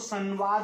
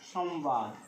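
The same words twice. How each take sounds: First: The first syllable ends in a nasal vowel. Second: The first syllable ends in a clear m. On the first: The speaker calls it wrong. "आप इसको संवाद नहीं पढ़ेंगे" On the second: The speaker calls it right. "उच्चारण माँ का ही होगा"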